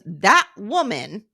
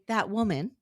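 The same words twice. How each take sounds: First: It is said with scorn. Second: It is said in a neutral tone.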